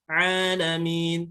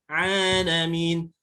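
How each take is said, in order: Both takes have the same delivery.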